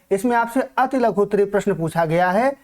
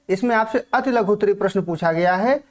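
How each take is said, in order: Both takes have the same delivery.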